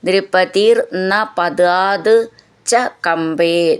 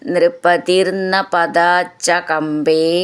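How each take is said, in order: First: The words are said separately, each one whole. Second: The words are joined, merging into one flow.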